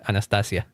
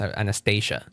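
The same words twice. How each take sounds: First: The name is pronounced the Spanish way. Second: The name is pronounced the English way. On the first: "that's how you would say it in Spanish" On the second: "that's how it be in English"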